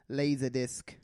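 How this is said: It is said in a New Zealand accent.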